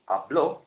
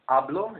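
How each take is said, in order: First: The stress is on the last syllable. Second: The stress is on the first syllable. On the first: He spoke. "stress the last syllable" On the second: I speak. "in present tense"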